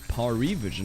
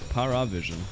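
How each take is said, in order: First: The second syllable has an 'ee' vowel. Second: The second syllable has an 'uh' vowel. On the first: The speaker calls it right. "it's Parivision" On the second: The speaker calls it wrong. "not Paravision"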